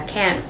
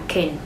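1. Từ này được đọc với nguyên âm đầy đủ, rõ ràng. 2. Từ này được đọc ngắn với nguyên âm yếu. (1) "thay vì đọc từ này là can" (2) "người bản xứ sẽ phát âm nó là can"

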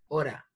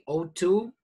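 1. Las palabras se unen en una forma reducida. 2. Las dos palabras se dicen completas y claras. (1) "los americanos lo pronuncian como hora" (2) "Me gusta la forma más correcta"

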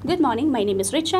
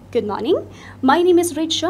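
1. आवाज़ सपाट और भावहीन है। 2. आवाज़ जीवंत, गर्म और विविधतापूर्ण है। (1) "I just sounded very scripted. I was not giving any sort of intonation or I didn't show any emotion" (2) "I just added a little bit of intonation"

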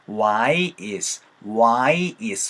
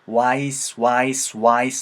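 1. 두 단어를 따로 발음해요. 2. 두 단어를 하나의 소리로 이어서 발음해요. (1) "why is 하는 게 불편하다 보니까" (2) "한 사운드로 자연스럽게 연결이 돼요"

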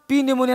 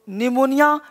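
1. शुरू का 'p' बोला जाता है। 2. शुरू का 'p' चुप रहता है।

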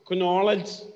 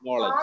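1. തുടക്കത്തിലെ k ശബ്ദം ഉച്ചരിക്കപ്പെടുന്നു. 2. തുടക്കത്തിലെ k ശബ്ദം നിശബ്ദമാണ്.

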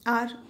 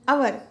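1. इस शब्द को एक सिलेबल में बोला जाता है। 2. इस शब्द को दो सिलेबल में बोला जाता है। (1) "हम इसे बोलेंगे आर" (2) "बहुत लोगों से सुना है मैंने, अवर"

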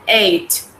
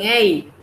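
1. La palabra termina con un sonido de t claro. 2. La palabra termina sin sonido de t final. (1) "Vean que finaliza en una T" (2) "Algunos dicen eight, no es eight"

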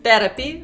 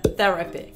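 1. Первый звук — обычный 't'. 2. Первый звук — мягкий 'th'. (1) "как Радж говорит «therapy»" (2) "вместо «therapy»"

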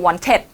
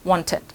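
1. พยางค์สุดท้ายออกเสียงเต็มและหนัก 2. พยางค์สุดท้ายออกเสียงสั้นและเบา (1) "คนไทยก็" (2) "ไม่เอาครึ่งเสียงพอ"

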